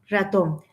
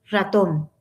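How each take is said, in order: The two takes are said the same way.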